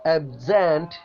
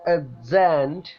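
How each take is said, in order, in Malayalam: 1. Stress രണ്ടാമത്തെ സിലബിളിനാണ്. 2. Stress രണ്ടാമത്തെ സിലബിളിനാണ്.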